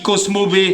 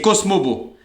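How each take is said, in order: First: The name ends with a 'bay' sound. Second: The name ends with a 'bo' sound. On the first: The speaker calls it wrong. "il arrive même pas à prononcer le cheval, il dit Cosmo B" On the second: The speaker calls it right. "Non, c'est Cosmobo"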